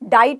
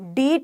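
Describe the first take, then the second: First: The vowel is an 'eye' diphthong. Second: The vowel is a long 'ee' sound. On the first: "डाइट नहीं बोला मैंने" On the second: "डीट नहीं बोला मैंने"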